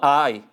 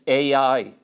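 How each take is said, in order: First: It sounds like the English word 'I'. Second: It does not sound like the word 'I'. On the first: The speaker calls it wrong. "Not I" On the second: The speaker calls it right. "That's the correct pronunciation of it"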